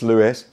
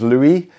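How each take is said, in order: First: The final S is pronounced. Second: The final S is silent. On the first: The speaker calls it right. "Apparently you do pronounce the S" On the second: The speaker calls it wrong. "Google said it was Louis"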